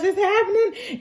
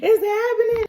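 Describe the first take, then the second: First: Crying, higher it's happening; child on the verge of tears; tearful. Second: Rising alarm, near a wail; child's panic peaking; panicked. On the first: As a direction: voice breaking on happening. Boy starting to cry. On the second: Boy panicking. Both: Acted.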